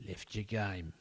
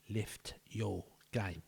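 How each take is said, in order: First: Said in the usual way. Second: A slow, drawn-out telling-off; slow stern coach. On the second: Shown as a demonstration. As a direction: drag it out like a disappointed coach.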